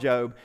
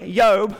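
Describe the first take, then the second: First: The name begins with a J sound. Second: The name begins with a Y sound. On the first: This is the common modern pronunciation. "but we can call him" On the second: This is the original pronunciation. "So it's really"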